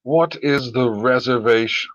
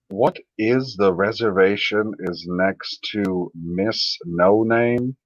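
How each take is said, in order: First: Said in the usual way. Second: Slow, halting read, stress on What; slow puzzled reading. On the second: Shown as a demonstration. Slowly rereading a confusing chat message aloud. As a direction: spell the sentence out slowly, puzzled. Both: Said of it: "I'm reading it like an idiot".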